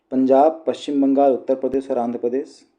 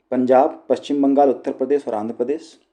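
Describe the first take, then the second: Both takes have the same delivery.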